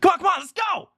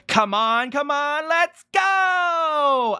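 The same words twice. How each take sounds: First: It is said quickly, like Sonic. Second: It is said slowly and drawn out.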